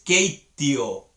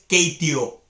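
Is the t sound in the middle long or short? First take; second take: long; short. First: The t sound in the middle is long. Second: The t sound in the middle is short. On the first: The speaker calls it right. "es Keitio. Hay dos T's ahí" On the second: The speaker calls it wrong. "Y no es Keitio"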